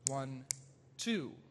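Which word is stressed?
two. The second count is said more strongly. The emphasis lands on the weaker beat, a weak syncopation. "inverts that natural relationship with these very uh, expressive notes and longer notes on the second beat"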